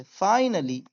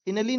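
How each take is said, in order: First: Finally with a long I, as in "fine"; correct pronunciation. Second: Finally with a short I in the first syllable; wrong pronunciation. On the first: (finally को सही "फ़ाइनली" बोलें) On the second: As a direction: say finally as "FIN-uh-lee". (finally को ग़लत "फ़िनली" बोलें) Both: Shown as a demonstration. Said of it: "finally नहीं बोलेंगे इसे".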